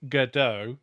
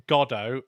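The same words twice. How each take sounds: First: Godot as guh-DOH, stressed on the end; guh-DOH pronunciation. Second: Godot as GOD-oh, first syllable stressed; GOD-oh pronunciation. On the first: Showing how they switch between versions, Godot as guh-DOH. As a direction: move the emphasis in Godot to DOH. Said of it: "that's an emphasis". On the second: Showing how they switch between versions, Godot as GOD-oh. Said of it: "I often switch between". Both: Shown as a demonstration.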